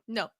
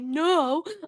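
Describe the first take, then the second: First: It is said in a stern, curt way. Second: It is said in a soft, ordinary way.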